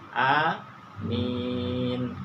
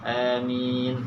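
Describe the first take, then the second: First: The first vowel is a long a sound. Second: The first vowel leans toward an e sound. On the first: "A-nya panjang, mim-nya panjang" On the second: "Kita bacanya e a boleh. Itu imalah"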